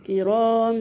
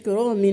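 First: The ending is a nasalized m sound. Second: The ending is pronounced with an n sound. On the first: The speaker calls it right. "نطقناها ميم ... خلاص مع الغنة" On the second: The speaker calls it wrong. "ان ما قلناش كرام، ما نطقناش نون كده خالص"

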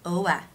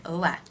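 The two takes are said the same way.

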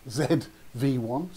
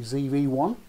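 First: The letter Z gets the British pronunciation. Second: The letter Z gets the American pronunciation. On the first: This is how it is said in the UK. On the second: This is how most people say it.

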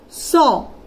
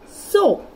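First: Each letter sound is said separately. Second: The word is said as one smooth syllable. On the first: The speaker calls it wrong. "if you go through the phonic sound, S-O, S-O. But this is not the pronunciation of this letter" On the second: The speaker calls it right. "S-O is going to be so"

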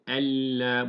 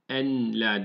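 First: The n merges fully into a doubled l. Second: The n is pronounced separately before the l. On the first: The speaker calls it right. "en la, buna dikkat ediyoruz" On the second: The speaker calls it wrong. "Çekmeye en la değil"

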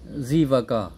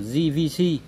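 First: The letters are named with Vietnamese letter names. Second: The letters are named with English letter names. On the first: "mình đọc theo tiếng Kinh nhá" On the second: "chú phải đọc theo tiếng Tây là JVC"

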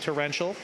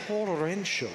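First: It is said plainly, with an ordinary pronunciation. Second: It is said with a dramatic, exaggerated enunciation. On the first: "It's just torrential" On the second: "the accent there is is optional"

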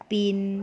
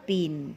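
First: The syllable has a low tone. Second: The syllable has a falling tone. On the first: "เอก" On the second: "โท"

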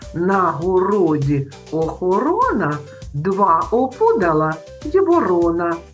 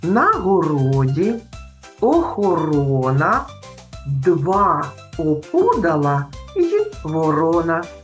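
First: The rhyme is said at a faster pace. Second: The rhyme is said at a slower pace.

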